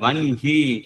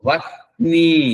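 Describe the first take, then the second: First: The n sound comes before the h. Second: The h sound comes before the n. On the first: This is how the word should be recited. The speaker calls it right. "మనము దాన్ని వన్హి అని చెప్పాలి" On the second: This is how the word is written. The speaker calls it wrong. "Vishnu సహస్రనామాల్లో వహ్ని అని వస్తుంది"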